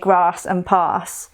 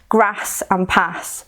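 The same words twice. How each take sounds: First: It is said in a non-Coventry accent. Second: It is said in a Coventry accent.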